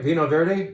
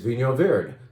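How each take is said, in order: First: The first word sounds like 'vee-no', plain 'n'. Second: The first word sounds like 'veen-yo', with 'ny'. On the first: The speaker calls it wrong. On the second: The speaker calls it right.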